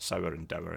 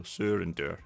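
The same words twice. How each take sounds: First: "sour and dour" both rhyming with "hour"; English pronunciation. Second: "sour and dour" both with a long "oo"; Scots pronunciation. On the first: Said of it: "traditional kind of English accent". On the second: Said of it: "in Scots". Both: Shown as a demonstration.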